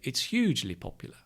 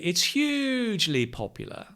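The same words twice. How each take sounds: First: Hugely gets a lighter, natural stress. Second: Hugely gets a heavy, exaggerated stress. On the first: "in reality, when you speak" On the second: "in a practice position"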